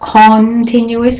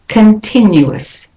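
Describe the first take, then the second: First: The first vowel is said fully and clearly. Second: The first vowel is weak and reduced. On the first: The speaker calls it wrong. "it's not continuous" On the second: The speaker calls it right. "the O in con is de-stressed"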